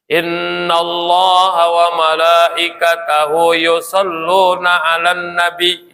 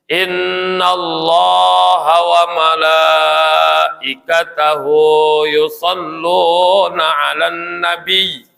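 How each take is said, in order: First: The long vowels are cut short. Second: The long vowels are held long. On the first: The speaker calls it wrong. "panjang pendeknya enggak enggak kerasa" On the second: The speaker calls it right. "Hu-nya juga panjang"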